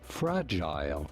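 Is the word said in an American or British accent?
British. It is said with a British English accent. "In British English"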